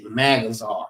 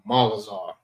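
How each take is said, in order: First: Magazar with a flat English A, MAG-uh-zar; anglicised Magazar, short a as in cat. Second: Magazar with open ah vowels, MAH-ga-zar; correct way. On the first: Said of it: "They say it as if they was saying it in English". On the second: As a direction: Magazar said with a broad ah in the first syllable. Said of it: "So let people know it's, it's not Magazar". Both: Shown as a demonstration.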